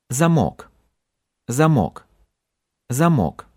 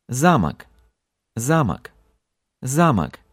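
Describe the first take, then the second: First: "Замок" stressed on МОК; short first vowel, strong ending in "Замок"; stress on last syllable. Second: "Замок" stressed on ЗА; strong opening, reduced last vowel in "Замок"; stress on first syllable. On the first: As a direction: hit the final o of "Замок". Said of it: "stress moved from the end". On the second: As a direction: hit the a at the start of "Замок". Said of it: "to the beginning". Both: Shown as a demonstration.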